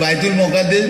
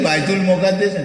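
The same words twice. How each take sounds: Both takes have the same delivery.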